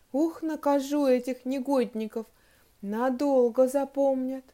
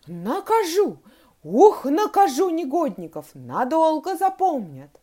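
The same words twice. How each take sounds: First: Said in the usual way. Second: Loud, high fuming threats; worked-up anger. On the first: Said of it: "стала вслух читать". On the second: A narrator's reading. Teacher unable to calm down, fuming loudly. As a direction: keep fuming, voice raised. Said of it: "она уже не могла успокоиться".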